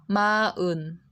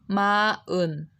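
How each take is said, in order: The two takes are said the same way.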